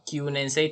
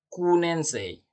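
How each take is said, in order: First: The first syllable has a y glide: kyu. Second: The first syllable has no y glide: ku. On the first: The speaker calls it right. "kelas sembilan hanya dibaca kyunensei" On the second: The speaker calls it wrong. "tidak kunensei"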